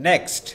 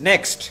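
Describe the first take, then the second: No difference in how they are said.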